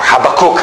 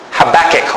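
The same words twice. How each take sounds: First: Habakkuk as HAB-uh-kook, ending in "kook"; other way to say Habakkuk. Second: Habakkuk as ha-BAK-ick, stress on the middle, short i at the end; "Habakkuk" with hard a sounds, ending "-ick", rising; one way to say Habakkuk. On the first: Preacher offers the congregation the alternative name: HAB-uh-kook. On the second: Preacher tries the first pronunciation of the prophet's name: ha-BAK-ick. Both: Shown as a demonstration. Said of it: "I don't know how you like pronouncing it".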